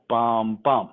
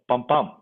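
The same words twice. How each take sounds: First: The two beats come slowly, far apart. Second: The two beats come quickly, close together. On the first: The speaker calls it wrong. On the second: The speaker calls it right. "Think of a quicker tempo"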